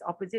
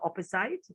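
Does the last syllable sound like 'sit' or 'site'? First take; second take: sit; site. First: The last syllable sounds like 'sit'. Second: The last syllable sounds like 'site'. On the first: The speaker calls it right. "The word is opposite" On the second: The speaker calls it wrong. "not opposite. it looks like you want to say opposite because it's a site"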